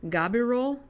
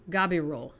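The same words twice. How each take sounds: First: "Gabirol?" tried higher, rising as a question; questioning pronunciation. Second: "Gabirol" with a hard G, ga-bi-ROL; corrected pronunciation. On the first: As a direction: try "Gabirol?" unsure, lifting. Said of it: "in my hideous American accent". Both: Shown as a demonstration.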